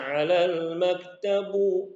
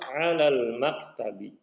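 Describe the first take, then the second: First: The last word ends with an 'u' vowel. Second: The last word ends with an 'i' vowel. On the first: The speaker calls it wrong. "Kalau dibaca alal maktabu salah" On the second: The speaker calls it right. "harus alal maktabi"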